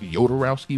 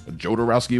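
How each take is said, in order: First: The name begins with a Y sound. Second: The name begins with a J sound. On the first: "with a Y" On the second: "with a J"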